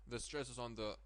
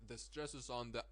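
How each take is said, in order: The two takes are said the same way.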